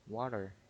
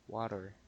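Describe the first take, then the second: First: The middle consonant sounds like a soft D. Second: The same.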